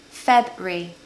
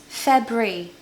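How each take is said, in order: First: The word is said with only two syllables. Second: The word is said with only two syllables.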